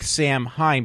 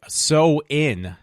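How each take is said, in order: First: The word sounds like 'sam-hayn', read as spelled. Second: The word sounds like 'sow-in', with no h. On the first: The speaker calls it wrong. "it looks like Samhain" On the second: The speaker calls it right. "it's actually pronounced"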